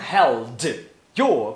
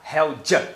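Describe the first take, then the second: First: The d stays and 'your' is full. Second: The d becomes j and 'your' is reduced.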